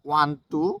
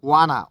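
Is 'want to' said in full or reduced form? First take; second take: full; reduced. First: The two words are said separately in full. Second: The two words blend into one reduced word.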